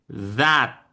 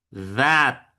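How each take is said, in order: The two takes are said the same way.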